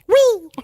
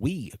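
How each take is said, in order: First: It is said in a special put-on voice. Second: It is said in an ordinary speaking voice. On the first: The speaker calls it right. "You have to say it in the real voice" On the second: The speaker calls it wrong. "you can't say it that way"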